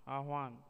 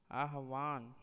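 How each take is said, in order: First: Said in the usual way. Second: आह्वान spread into "aa-ha-vaan"; आह्वान in three syllables; wrong pronunciation. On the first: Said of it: "शुद्ध शब्द". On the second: Shown as a demonstration. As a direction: add a vowel after h in आह्वान. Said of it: "अशुद्ध शब्द".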